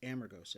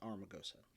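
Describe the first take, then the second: First: The r sound is in the second syllable. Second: The r sound is in the first syllable. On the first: The speaker calls it right. "it's Amargosa" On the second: The speaker calls it wrong. "not Armagosa"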